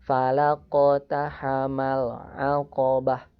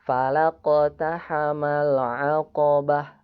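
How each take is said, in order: Both takes have the same delivery.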